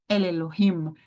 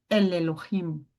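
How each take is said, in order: The two takes are said the same way.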